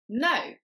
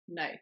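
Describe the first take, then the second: First: The word is said with the most force. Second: The word is said with light force.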